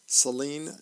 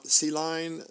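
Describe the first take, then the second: First: Said in the usual way. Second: "Celine" said as "see-line"; mispronounced name. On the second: Real, not acted. Reader stumbles on singer's name, "Celine" misread as "see-line". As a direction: say "Celine" with a second syllable like "line".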